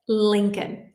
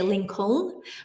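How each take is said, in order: First: The second L sound is silent. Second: The second L sound is pronounced. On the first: The speaker calls it right. "The L in Lincoln, the second L, is silent" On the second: The speaker calls it wrong. "a lot of people try to say Lincoln"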